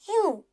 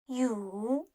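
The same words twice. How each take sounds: First: The pitch falls sharply from high to low. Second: The pitch dips low and then rises.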